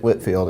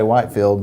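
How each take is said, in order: First: The first syllable sounds like 'whit'. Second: The first syllable sounds like 'white'. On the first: The speaker calls it right. "here you get Whitfield, and that is apparently correct" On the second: The speaker calls it wrong. "a lot of people are probably going to say Whitefield"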